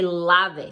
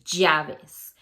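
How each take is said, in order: First: The double L sounds like an English L. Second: The double L sounds like an English Y. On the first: The speaker calls it wrong. "You don't say lave" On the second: The speaker calls it right. "you say llaves"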